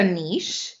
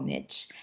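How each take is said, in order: First: "niche" pronounced "neesh"; niche like quiche. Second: "niche" as a softer, low "nitch"; niche like itch. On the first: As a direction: rhyme "niche" with quiche, long ee and sh. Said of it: "I personally say niche". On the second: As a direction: rhyme "niche" with itch, dropping it in quietly. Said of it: "switch to niche". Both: Shown as a demonstration.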